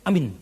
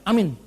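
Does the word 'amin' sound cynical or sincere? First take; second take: cynical; sincere. First: It is said in a cynical, sneering tone. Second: It is said in a warm, sincere tone. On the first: The speaker does not really wish the other person well. The speaker calls it wrong. "Aminnya sinis" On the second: The speaker genuinely prays for the other person. The speaker calls it right. "Mending kalau aminnya tulus ikhlas"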